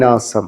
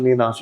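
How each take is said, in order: First: The second syllable begins with an 's' sound. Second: The second syllable begins with a 'sh' sound. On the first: The speaker calls it right. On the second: The speaker calls it wrong.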